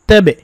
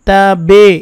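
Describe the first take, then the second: First: The t sound is thin and light. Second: The t sound is thick and heavy. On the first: The speaker calls it right. "এটা পাতলা" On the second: The speaker calls it wrong. "এরকমের বলা যাবে না"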